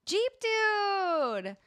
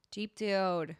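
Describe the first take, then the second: First: Jeep Dude called out high and loud; excited announcement. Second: Said in the usual way. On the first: Real, not acted. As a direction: proclaim the winner like a game show host. Announcing the giveaway winner.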